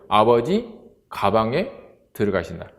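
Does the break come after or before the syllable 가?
before. 가 and 방 are joined without a break. Father is going into a bag.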